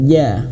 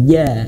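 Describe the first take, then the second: The two takes are said the same way.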